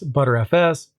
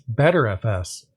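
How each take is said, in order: First: The name starts with the word butter. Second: The name starts with the word better. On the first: "I've most often heard of it being pronounced as ButterFS" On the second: "as well as BetterFS"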